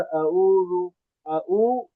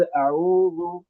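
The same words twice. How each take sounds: First: اعوذ with a plain glottal stop for ع; ain turned hamza. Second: Slow اعوذ with a mid-throat ع; correct ain. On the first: Teacher showing the mistake, hamza in place of ع in اعوذ. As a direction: lose the throat ع in اعوذ, leaving a hamza. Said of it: "عین حمزہ بن گئی". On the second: Teacher giving the example word, slow correct ع in اعوذ. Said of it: "اگلا حرف عین ہے جو درمیانی حلق سے". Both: Shown as a demonstration.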